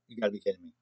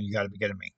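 First: Low, soft, disbelieving mutter; muttered disbelief. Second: Real disbelief. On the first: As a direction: say it under your breath, stunned. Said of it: "I'd be like". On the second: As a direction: lower and softer, truly meant. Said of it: "I'm, like, really saying". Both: Retold or imitated.

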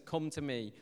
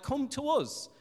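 First: Gentle invitation. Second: High, raised beckoning call; mock people summoning God over; acted demand. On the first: Acted. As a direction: invite softly, as Jesus to the weary. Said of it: "Jesus says". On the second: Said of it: "and we say".

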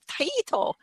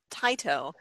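First: Taito, stressed on the middle EE; chosen pronunciation. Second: Plain two-syllable Taito, no middle EE; first pronunciation. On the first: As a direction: say Taito in three syllables, tie-EE-toe. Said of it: "I'm just gonna go with". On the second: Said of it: "I thought we had pronounced it". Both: Shown as a demonstration.

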